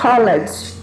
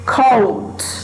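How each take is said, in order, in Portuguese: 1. A terminação é pronunciada como uma sílaba extra. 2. A terminação não acrescenta nenhuma sílaba extra. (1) "você não vai falar college" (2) "nós temos cold"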